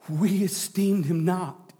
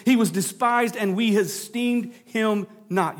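First: "We" leaned on, whole line slow and deliberate; stress on WE. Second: Said in the usual way. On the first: Shown as a demonstration. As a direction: point at "We esteemed him not" by hitting "We". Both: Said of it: "hear who's saying this".

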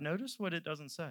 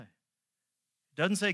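First: Said in the usual way. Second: "It doesn't say" drawn out slowly, rising on "say"; slow stressed doesn't say. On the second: Shown as a demonstration. Preacher pointing out the missing words, slow stressed rise. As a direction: stretch "It doesn't say" slow and lift "say" like a question.

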